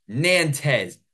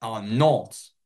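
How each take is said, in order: First: Nantes said the American way as NAN-tez, with the final s sounded; American pronunciation. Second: Nantes said in French as NONT, silent final s; attempted French pronunciation. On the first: Commentator ranting about French names, Nantes said the American way. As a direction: Nantes read with every letter sounded. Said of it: "this is the American way to say these names". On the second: Commentator trying the French name properly. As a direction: Nantes with a nasal vowel. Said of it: "my French pronunciations". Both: Shown as a demonstration.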